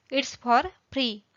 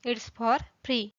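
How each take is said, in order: Both takes have the same delivery.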